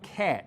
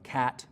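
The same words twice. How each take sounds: First: The vowel is raised and said with a tenser tongue. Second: The vowel is low and open, like ah. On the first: "This vowel unit moves up ... pronounced with a little bit tenser tongue and sounds like cat" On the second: "in most accents of English, the vowel sound in words like uh, cat, bag, ... is something like ah"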